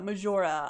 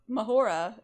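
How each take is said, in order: First: The middle consonant is a J sound. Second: The middle consonant is an H sound. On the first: The speaker calls it right. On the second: The speaker calls it wrong.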